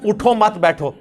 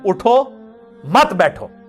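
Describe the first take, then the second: First: There is a pause after 'utho mat'. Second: There is a pause after 'utho'.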